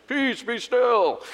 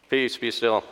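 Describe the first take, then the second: First: High, slow, hammed-up Hollywood proclamation; big dramatic. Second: Said in the usual way. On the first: Hollywood Jesus stands over the storm, grandly dramatic. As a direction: boom it theatrically, drawing out each word. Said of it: "we imagine this big dramatic thing". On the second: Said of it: "I'm thinking he just went".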